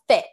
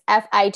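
First: It is said as one single word. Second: Each letter is said separately. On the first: The speaker calls it wrong. "It's not called FIT" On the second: The speaker calls it right. "You got to pronounce each letter separately"

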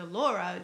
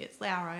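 First: The first vowel sounds like 'or'. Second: The first vowel sounds like 'ow' in Audi. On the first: The speaker calls it wrong. "So everyone calls her Dr" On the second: The speaker calls it right. "She corrects them and says, actually"

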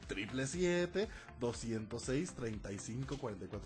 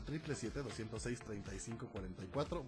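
First: The number is said at a slow pace. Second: The number is said at a fast pace.

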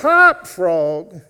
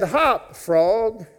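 First: It is said as loud as possible. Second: It is said at normal volume.

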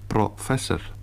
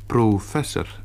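First: The first vowel is short and reduced. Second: The first vowel is long and full. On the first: The speaker calls it wrong. "en niet professor" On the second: The speaker calls it right. "in open lettergrepen de klinkers ongedekt worden uitgesproken. Daarom zegt ze professor"

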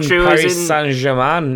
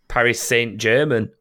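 First: The name is said with a French pronunciation. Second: The name is said with an English pronunciation. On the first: The speaker calls it right. "It's French" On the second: The speaker calls it wrong. "It's not"

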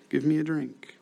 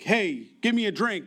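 First: It is said in a polite, simple tone. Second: It is said in a rude, demanding tone.

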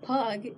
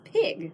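First: The vowel sounds like the u in pug. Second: The vowel sounds like the i in pig. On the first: This is the older Middle English pronunciation. "in Saxon England, Middle English, the Y was pronounced as a U" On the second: This is the modern English pronunciation. "in English, we now pronounce it as an I"

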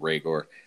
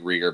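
First: The name is pronounced in its actual way. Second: The name is pronounced the way it looks written. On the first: The speaker calls it right. "but it's actually Reagor" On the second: The speaker calls it wrong. "it's looks like Reagor"

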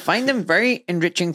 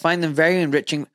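First: It is said in a put-on German accent. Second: It is said in the speaker's plain accent.

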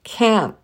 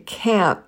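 First: The final T is dropped. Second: The final T is dropped.

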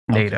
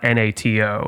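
First: It is pronounced as a single word. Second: It is spelled out letter by letter. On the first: The speaker calls it right. "an acronym is a word" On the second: The speaker calls it wrong. "It's not NATO"

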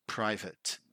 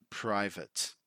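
The two takes are said the same way.

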